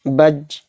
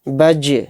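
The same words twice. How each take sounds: First: The final j is closed flat without a bounce. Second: The final j is released with an echoing bounce. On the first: The speaker calls it wrong. "इस तरह से नहीं निकालेंगे, ये गलत है" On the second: The speaker calls it right. "किस तरह से निकालेंगे?"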